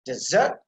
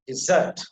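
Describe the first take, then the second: First: "desert" slowly, fuller "de" at the start; weight the "de" in "desert"; stress on first syllable. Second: "dessert" with short first vowel, weight on "-sert"; stress on second syllable. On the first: Teacher contrasting the two words, first syllable stressed. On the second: Teacher contrasting the two words, second syllable stressed. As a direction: punch the end of "dessert". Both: Shown as a demonstration. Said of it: "we can understand the difference between".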